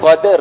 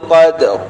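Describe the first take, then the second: First: A vowel is inserted between the d and r. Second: The d and r follow with no vowel between. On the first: The speaker calls it wrong. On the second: The speaker calls it right.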